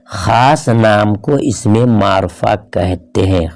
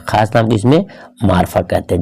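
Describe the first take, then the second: First: Slow, spaced-out words; slow, measured definition. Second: Said in the usual way. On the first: Shown as a demonstration. Teacher defining proper nouns to students, slow and deliberate. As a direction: dictate it slowly, word by word.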